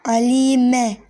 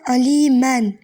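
First: The word ends with a plain vowel. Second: The word ends with an n sound. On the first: The reader stops on the word. "Yani tenvini atacaksınız. Yerine üstün gelecek" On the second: The word is read without stopping on it. "tenvinli bir şey gördünüz"

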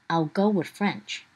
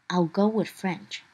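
The two takes are said the same way.

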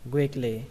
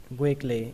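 No difference in how they are said.

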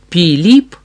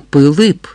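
First: The vowels are sharp 'ee' sounds. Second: The vowels are lax 'ih' sounds. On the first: This is how a foreigner says it. The speaker calls it wrong. "Не Піліп" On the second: This is how Cossacks say it. The speaker calls it right. "а Пилип"

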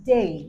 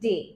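First: The word ends in an 'ei' glide. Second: The word ends in a plain 'e' vowel. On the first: The speaker calls it right. "এটাকে বলতে হবে ডে" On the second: The speaker calls it wrong. "যেটাকে আমরা সাধারণত বলি ডে, তাই না? তো এটা একটা ভুল উচ্চারণ"

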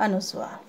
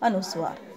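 Both takes have the same delivery.

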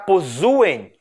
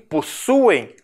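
First: The middle consonant is a buzzing Z sound. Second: The middle consonant is a hissing S sound. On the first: The speaker calls it wrong. "Para não ficar possuem" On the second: The speaker calls it right. "e sim possuem, nós dobramos o S para manter esse fonema"

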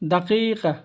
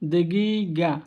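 First: The middle consonants are k-like sounds. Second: The middle consonants are g-like sounds. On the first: The speaker calls it right. "আরবরা আরও একটা কথা বলে দাকিকা" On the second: The speaker calls it wrong. "আমরা বলি দেগিগা, এটা হলো ভুল"

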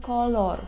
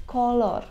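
No difference in how they are said.

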